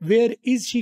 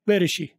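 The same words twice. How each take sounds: First: The words are said separately with breaks. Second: The words are linked smoothly into one. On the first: The speaker calls it wrong. "अलग नहीं बोलना" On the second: The speaker calls it right. "मिला के बोलना है"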